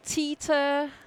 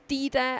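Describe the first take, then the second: First: The name starts with a T sound. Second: The name starts with a D sound. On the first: This is how many Americans say it. The speaker calls it wrong. "the D sounds like a T for many" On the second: This is how the name is really said. The speaker calls it right. "no, Dida"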